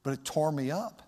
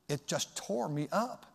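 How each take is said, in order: First: Said in the usual way. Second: It just tore me up, drawn out slowly; slower, heavier repeat. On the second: Real, not acted. Pastor repeating his regret to the church, slower. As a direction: lean into the repeat, slowing down.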